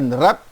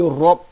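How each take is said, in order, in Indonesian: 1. Bunyi r-nya ringan dan tipis. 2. Bunyi r-nya berat dan tebal. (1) "bukan rab" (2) "tapi rob. Ra-nya di uh, tebalkan"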